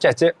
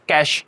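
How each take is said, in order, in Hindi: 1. यह दो अक्षरों में बोला जाता है, 'che-che'। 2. यह एक अक्षर में बोला जाता है, 'cash' जैसे। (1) "दिस इज नॉट चेचे" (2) "दिस इज कैश"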